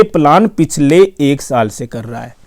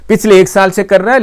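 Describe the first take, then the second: First: Said in the usual way. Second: पिछले एक साल से कर रहा है said higher with the end rising; emphatic repeat. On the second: Shown as a demonstration. Vlogger repeats to viewers how long WhatsApp has planned ads, emphatically. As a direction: hammer home पिछले एक साल, pitched up.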